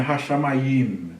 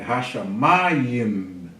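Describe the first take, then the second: First: Hashamayim run together, weight moved to the final YIM; wrong stress. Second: Hashamayim slow, with a long stressed MA; correct stress. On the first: Teacher showing class the mistake, Hashamayim stressed on final YIM. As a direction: say Hashamayim evenly, landing on a long last YIM. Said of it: "Não é Hashamayim". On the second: Teacher correcting for class, Hashamayim stressed on a drawn-out MA. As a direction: stretch the MA in Hashamayim, let YIM fall. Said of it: "É Hashamayim". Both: Shown as a demonstration.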